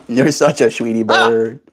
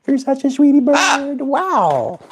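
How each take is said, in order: First: Said in the usual way. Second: Very high squeaky coo. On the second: Real, not acted. Same line in squeaky voice.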